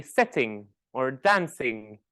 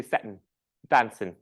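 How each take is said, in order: First: "sitting" and "dancing" with the final NG fully sounded; full ING endings. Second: "sitting" and "dancing" ending in N, as sittin', dancin'; dropped G endings. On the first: Teacher showing what she never says, "sitting" with full ING. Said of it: "I would never say". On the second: Teacher showing her own accent, "sitting" and "dancing" without final G. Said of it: "I will eat the G sound". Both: Shown as a demonstration.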